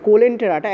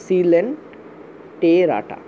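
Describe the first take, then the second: First: Said in the usual way. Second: সিলেন্টেরাটা drawn out very slowly, starting with an s; teacher modelling সিলেন্টেরাটা as the right form; slow correct pronunciation. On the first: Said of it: "হওয়া উচিত ছিল সিলেন্টেরাটা". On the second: Shown as a demonstration. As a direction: lay out সিলেন্টেরাটা one syllable at a time. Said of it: "এইভাবে উচ্চারণ করা হয়".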